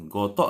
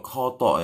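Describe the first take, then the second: First: "gotok" with a plain g sound; unaspirated first consonant. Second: "kotok" opened with a breathy kh; aspirated KH. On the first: Teacher contrasts the unknown word "gotok", plain g onset. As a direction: start "gotok" on g, without a puff of air. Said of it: "gotok aku nggak tahu". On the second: Teacher spells out the word for learners, aspirated "kotok". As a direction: puff air after the k in "kotok". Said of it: "K H O ya". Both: Shown as a demonstration.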